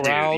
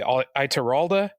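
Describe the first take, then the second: First: The name ends on a consonant, no final vowel. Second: The name ends with a final vowel sound.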